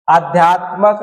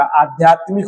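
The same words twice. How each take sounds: First: आध्यात्मक with a short a before the final k; "आध्यात्मक", ending in -मक; wrong form said. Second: आध्यात्मिक with a clear ik ending; "आध्यात्मिक", ending in -मिक; correct form said. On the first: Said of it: "आध्यात्मक नहीं होगा". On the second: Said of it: "इक जुड़ेगा". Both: Shown as a demonstration.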